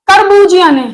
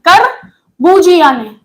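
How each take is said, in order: First: Said in the usual way. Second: करबूजिया ने said slowly, each syllable drawn out for dictation; करबूजिया dragged slow and clear; slow, spelled-out name. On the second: Shown as a demonstration. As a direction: stretch out करबूजिया so students can write it down.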